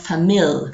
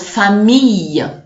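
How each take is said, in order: First: The ILL is pronounced as an l sound. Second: The ILL is pronounced as a y sound. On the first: The speaker calls it wrong. "and not" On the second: The speaker calls it right. "I L L generally in French is y"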